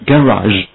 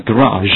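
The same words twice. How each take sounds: First: Garage as "gan-razh", first syllable full; garage另一读法. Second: Garage as "guh-RAZH", first syllable reduced; garage弱读示范. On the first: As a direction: give garage a clear, open first vowel. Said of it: "或者是garage". (garage第一音节读得饱满) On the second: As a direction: squeeze the first vowel of garage, land on the second syllable. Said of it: "其中的一个你可以念成garage". (garage第一音节轻短，重音在后) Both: Shown as a demonstration.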